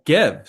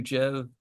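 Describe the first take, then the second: First: "Gev" said with a hard g, as in "get"; corrected pronunciation. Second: "Jev" said with a soft j sound, as in "jet"; mistaken pronunciation. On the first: Streamer corrects his misread ticker for chat, hard g "Gev". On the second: Streamer misreads the ticker aloud to his chat, soft j "Jev". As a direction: read the ticker as "Jev" with a j, not a hard g. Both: Real, not acted. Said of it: "Sorry, Gev".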